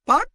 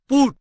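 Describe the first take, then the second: First: The vowel sounds like the u in but. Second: The vowel sounds like the oo in foot. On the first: The speaker calls it wrong. "বিউটি পাট না" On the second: The speaker calls it right. "সেটা পুট"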